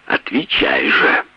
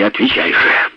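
First: Low, slow, strangled demand; strained, held-back voice. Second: Louder, higher demand. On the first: Brendel presses his wife for an answer, voice held in. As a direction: force it out through a tight throat. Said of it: "голос его звучал сдавленно". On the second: Brendel loses his temper at his wife, louder demand. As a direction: break out of the restraint and push the order up. Husband losing control in quarrel. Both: A narrator's reading.

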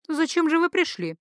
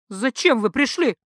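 First: High, drifting and absent; floating, faraway wondering; dreamy priestess question. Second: Snapped out hard, landing on пришли; sudden harsh demand; barked question. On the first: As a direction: ask it as if half in a trance. Priestess asks dreamily, mind drifting. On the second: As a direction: bark it at the men. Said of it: "рявкнула она". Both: Acted.

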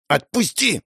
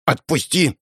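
First: Put-on higher girl's voice demanding release; struggling girl. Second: Put-on higher girl's voice demanding release; pulling free. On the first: Girl still struggling demands he let go, higher voice. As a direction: repeat the demand while jerking away. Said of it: "Она продолжала дёргаться". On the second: Girl struggling against her brother's grip, higher demanding voice. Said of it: "Она пыталась вырваться".

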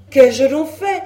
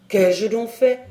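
First: Loud, high wail of protest; escalated, hapless outcry; distressed cry. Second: Acted protest of a wretched man; hapless, wronged question; distressed cry. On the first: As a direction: cry out as the wretched accused. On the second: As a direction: ask in hapless bewilderment, moderately raised. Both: A narrator's reading. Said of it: "s'écria le malheureux Le Gall".

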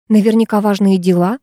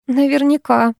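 First: Said in the usual way. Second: Higher, sceptical echo; mildly sarcastic agreement; wry snort. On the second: A narrator's reading. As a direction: echo it with a dismissive little huff. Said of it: "хмыкнула я".

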